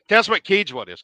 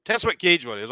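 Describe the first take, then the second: First: Louder repeat. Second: Said in the usual way. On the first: Real, not acted. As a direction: question asked again, louder and higher. Host repeats the question louder.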